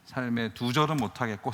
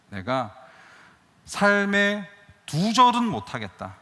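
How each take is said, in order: First: Said in the usual way. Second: Loud, slow, emphatic declaration with stress on 절은; slow, loud and drawn out, landing hard on 절은; defiant vow. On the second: Retold or imitated. Stubborn vow after injustice. (절은에 힘주어 크게 천천히 외치는 다짐)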